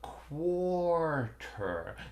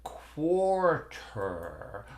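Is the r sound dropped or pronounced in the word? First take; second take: pronounced; pronounced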